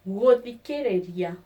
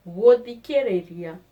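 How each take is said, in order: Both takes have the same delivery.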